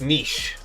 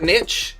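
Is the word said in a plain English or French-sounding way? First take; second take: French-sounding; plain English. First: The word is said the French-sounding way. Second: The word is said the plain English way. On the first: The speaker calls it right. "I'm civilized over here" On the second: The speaker calls it wrong. "it's not niche"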